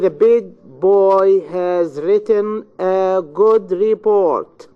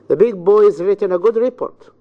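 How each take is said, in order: First: Every word gets its own equal stress. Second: Only three words are stressed, evenly spaced. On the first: The speaker calls it wrong. "your students say ... which is not English" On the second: The speaker calls it right. "It's completely different"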